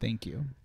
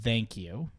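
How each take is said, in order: First: It is said lightly, with little weight. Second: It is said heavily, with more weight. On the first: The speaker calls it wrong. "I didn't say it correctly" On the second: The speaker calls it right. "Let me make it a bit heavier"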